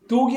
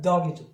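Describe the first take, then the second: First: The vowel sounds like oh. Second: The vowel sounds like ah. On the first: The speaker calls it wrong. "dog이 아니라" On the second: The speaker calls it right. "아에 가깝죠"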